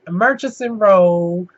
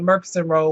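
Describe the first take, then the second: First: The middle sound is a soft ch. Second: The middle sound is a hard k.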